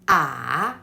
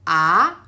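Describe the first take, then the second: First: The pitch dips and then turns up. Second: The pitch rises toward the end. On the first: "there is a turn in the third tone" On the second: "a stick that towards upper right direction"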